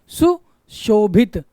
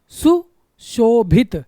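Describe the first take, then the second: No difference in how they are said.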